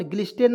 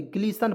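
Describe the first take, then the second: First: ग्लिस्टेन with the T sounded; wrong pronunciation. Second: ग्लीसन without any T; correct silent T. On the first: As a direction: say ग्लिस्टेन as "glis-ten". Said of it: "ग्लिस्टेन नहीं पढ़ेंगे". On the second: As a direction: say ग्लीसन as "glee-san". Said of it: "ग्लीसन पढ़ेंगे". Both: Shown as a demonstration.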